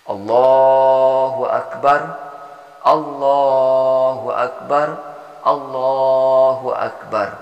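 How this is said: The three phrases are separated by pauses.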